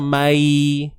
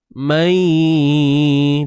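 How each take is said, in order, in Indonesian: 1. Suku katanya polos, tanpa dengung sengau. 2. Suku kata itu ditahan dengan dengung sengau. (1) "tu bunyi kosong kan?" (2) "pastikan jangan kosongkan bunyi dia"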